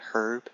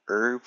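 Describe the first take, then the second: First: The word starts with a clear h sound. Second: The word starts with a vowel, no h sound. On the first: "rather than herb" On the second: "some people also got mad at me for saying herb"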